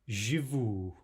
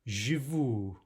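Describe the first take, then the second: Both takes have the same delivery.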